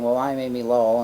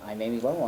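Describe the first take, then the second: First: Grand self-introduction. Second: Said in the usual way. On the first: Retold or imitated. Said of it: "she was very used to saying". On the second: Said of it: "And she goes".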